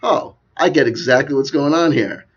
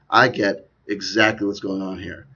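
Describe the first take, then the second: First: Louder, higher dawning insight; acted realization. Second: Slow, measured restatement; deliberate realization. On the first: Talker voicing a viewer's thought, loud sudden realization. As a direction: exclaim it like a sudden discovery. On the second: Acted. Talker repeating the viewer's thought, slow and deliberate. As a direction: spell it out slowly and knowingly. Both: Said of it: "you could just say to yourself".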